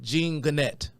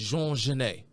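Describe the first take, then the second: First: The name is read out as English spelling. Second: The name is said with French sounds. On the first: "you try to pronounce it phonetically, you would probably pronounce it" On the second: "the popular pronunciation of this man's name is"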